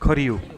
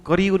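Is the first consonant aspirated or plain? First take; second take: aspirated; plain. First: The first consonant is an aspirated kh sound. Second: The first consonant is a plain k sound. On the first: The speaker calls it right. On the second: The speaker calls it wrong. "જો કંકુ કર્યું નહીં"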